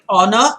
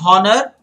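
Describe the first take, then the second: First: The H at the start is silent. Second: The H at the start is pronounced. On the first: The speaker calls it right. "there is great honor" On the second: The speaker calls it wrong. "You don't say honor"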